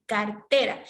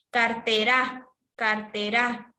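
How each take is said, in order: First: Cartera with TE stressed; car-TE-ra, weight on the middle syllable; correct stress on TE. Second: Cartera with the final RA stressed, as carte-RÁ; carte-RÁ, weight thrown onto the last syllable; wrong stress on RA. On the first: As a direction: lean on TE in cartera. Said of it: "es cartera". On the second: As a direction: say Cartera leaning hard on the ending ra. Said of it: "mayor fuerza de voz a ra". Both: Shown as a demonstration.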